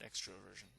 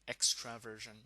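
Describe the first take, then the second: First: The vowel after 'extr' is an 'o' sound. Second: The vowel after 'extr' is an 'a' sound. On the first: The speaker calls it wrong. "not extroversion" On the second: The speaker calls it right. "a personality stickler will say it's an A in extraversion"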